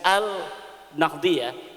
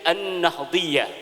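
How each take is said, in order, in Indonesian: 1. L-nya jelas dilafalkan sebelum N. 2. L-nya melebur ke bunyi N. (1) "kalau dalam tulisan" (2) "kalau ditajwid"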